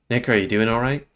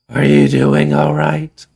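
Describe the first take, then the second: First: It is said in the speaker's normal voice. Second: It is said in a Homer Simpson voice.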